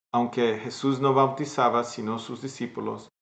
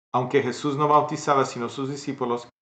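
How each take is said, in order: Both takes have the same delivery.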